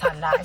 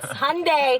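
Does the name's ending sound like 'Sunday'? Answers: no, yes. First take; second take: no; yes. First: The name does not end like Sunday. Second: The name ends like the word Sunday. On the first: This is the common mistaken pronunciation. The speaker calls it wrong. "everyone here says Hyundai" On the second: This is the correct pronunciation. The speaker calls it right. "it's Hyundai like Sunday"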